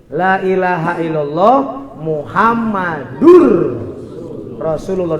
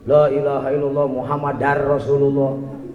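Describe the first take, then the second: First: The ending after Muhammad has a 'u' vowel. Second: The ending after Muhammad has an 'a' vowel. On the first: The speaker calls it right. "Jangan kebalik" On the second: The speaker calls it wrong. "Ada orang yang bacanya kebalik"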